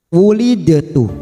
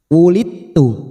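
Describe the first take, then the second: First: The d is released with a vowel before t. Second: The d runs straight into t, no bounce. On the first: The speaker calls it wrong. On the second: The speaker calls it right. "hukum qalqalah pada huruf dal ini sudah tidak berfungsi, maka tidak ada pantulan"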